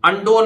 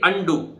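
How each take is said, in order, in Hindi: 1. शब्द 'oh' स्वर से खत्म होता है। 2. शब्द 'oo' स्वर से खत्म होता है। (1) "अंडो नहीं है ये" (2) "अंडू ना"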